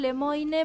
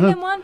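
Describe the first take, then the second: First: The name is pronounced just as it is spelled. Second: The name is pronounced the French way. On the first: This makes the name easy to find online. "yo siempre digo Lemoine para que me puedan encontrar en internet, porque en esta época de las redes es cómo se escribe y no cómo se pronuncia" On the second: This is the name's real pronunciation. "Es Lemoine"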